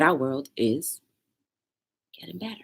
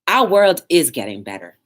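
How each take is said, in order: First: It is said plainly, with ordinary energy. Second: It is said forcefully, with much more energy. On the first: The speaker calls it wrong. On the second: The speaker calls it right.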